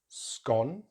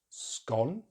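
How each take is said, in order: The two takes are said the same way.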